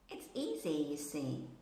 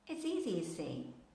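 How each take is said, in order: First: It is said very slowly, word by word. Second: It is said quickly with the words merged. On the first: "I read these sentences very slowly" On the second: "I'm more or less almost merging them together"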